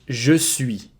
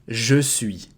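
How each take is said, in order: The two takes are said the same way.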